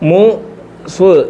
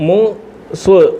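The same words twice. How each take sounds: No difference in how they are said.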